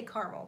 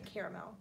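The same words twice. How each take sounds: First: "caramel" said as KAR-mul, two syllables; "caramel" as she says it, CAR-mul. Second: "caramel" said as KAIR-uh-mel, three syllables, quick and soft; the other way: "caramel" as KARE-a-mel. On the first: Telling chat how she says "caramel", KAR-mul. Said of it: "Did you say caramel or c". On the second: Showing chat how others say "caramel", KAIR-uh-mel. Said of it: "I say caramel, but I know a lot of people say". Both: Shown as a demonstration.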